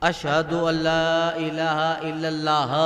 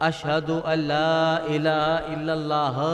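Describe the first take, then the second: Both takes have the same delivery.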